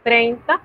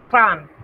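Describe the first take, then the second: First: Said in the usual way. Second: Trente said in French right after Spanish treinta; French tens demo. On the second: Shown as a demonstration. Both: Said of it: "las decenas son así".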